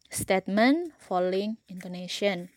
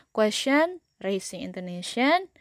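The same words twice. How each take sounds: First: Teacher's label closing downward on "intonation"; falling intonation. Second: Teacher's label said with an upward question tune on "intonation"; rising intonation. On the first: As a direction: begin up on "statement", step down through "intonation". Teacher illustrates tune on the labels. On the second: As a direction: lift the end of "question" and of "intonation". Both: Shown as a demonstration.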